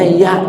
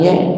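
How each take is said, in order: First: The word ends with an open 'a' vowel. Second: The word ends with an 'e' vowel. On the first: The speaker calls it right. "Ya dibacanya ya" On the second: The speaker calls it wrong. "jangan ye"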